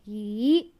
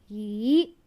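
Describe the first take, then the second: First: The word is said on a rising tone. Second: The same.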